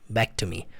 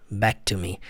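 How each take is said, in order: The two takes are said the same way.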